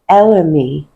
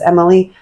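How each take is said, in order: First: The name begins with an 'el' sound. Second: The name begins with an 'em' sound. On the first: The speaker calls it right. "but it's actually Elamy" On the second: The speaker calls it wrong. "I always say this wrong"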